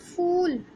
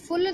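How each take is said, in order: First: The u vowel is long and drawn out. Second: The u vowel is short and clipped. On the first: The speaker calls it right. "जोर लगाना पड़ रहा है ना मुझे बोलने में" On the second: The speaker calls it wrong. "फुल तो नहीं बोल रही"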